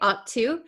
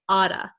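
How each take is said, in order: First: The T sounds are said clearly and fully. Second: The T is flapped and sounds like D. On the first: "we can say ought to" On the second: "you'll hear people say oughta, ... becomes a flap T, which sounds like a D sound"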